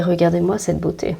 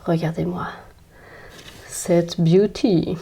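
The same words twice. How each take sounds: First: Said in the usual way. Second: Soft, slowed, drawn-out "beauty" said the English way; playful swooning aside about the plant; mock-admiring English drawl. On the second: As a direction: savour "cette beauty" slowly in a playful English accent. Shows off plant, English word.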